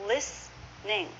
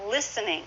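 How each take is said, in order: First: Slow "listening", lis-ning; shortened, two syllables. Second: "Listening" as lis-en-ing, silent T; full three syllables. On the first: Teacher sounding it out for learners, "listening" slowly as lis-ning. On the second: Teacher showing the full form, "Listening" in three syllables. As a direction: keep the middle vowel in "Listening". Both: Shown as a demonstration. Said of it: "is often".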